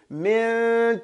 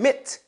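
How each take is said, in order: First: The n sound is partly there, faded. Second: The n sound is dropped into the next sound. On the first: The speaker calls it right. "the noon is there, but it's not all the way. So I fade into" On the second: The speaker calls it wrong. "without saying mit"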